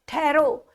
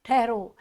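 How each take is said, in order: First: Higher, declaimed stop; recited verse. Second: Said in the usual way. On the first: Shown as a demonstration. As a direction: call out the verse line. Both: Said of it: "मुझे इस समय कहने से कोई मुझे रोको मत".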